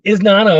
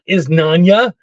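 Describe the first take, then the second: First: The second n is a plain n. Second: The second n is said like ny. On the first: The speaker calls it right. "It's isn't Isnana" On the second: The speaker calls it wrong. "it's not Isnanya"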